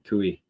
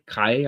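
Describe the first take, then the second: First: It sounds like 'koo-ee', with an 'oo' sound. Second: It sounds like 'kai', rhyming with 'eye'. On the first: The speaker calls it right. "I bet you he's right. Nope, Kui" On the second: The speaker calls it wrong. "Kai Kai, I think is how you pronounce it"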